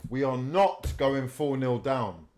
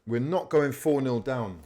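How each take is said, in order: First: Slow, each word set down, "not" hit hard; stress on not. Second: Said in the usual way. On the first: Real, not acted. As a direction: spell out "not" as a vow, slowly.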